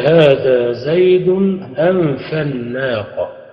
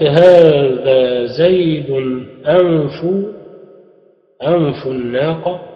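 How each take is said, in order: First: The word anf ends in the vowel a. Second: The word anf ends in the vowel u. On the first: It is cut off from the name as an object. "يجوز القطع إلى النصب" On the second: It is an adjective following the named person. "الإتباع على الضم"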